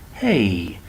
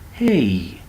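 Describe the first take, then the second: No difference in how they are said.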